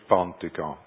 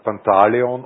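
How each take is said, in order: First: The name is said in a shortened dialect form. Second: The name is said in its standard full form. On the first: "im Viertlerisch Pontigon" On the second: "dort sagt man St. Pantaleon"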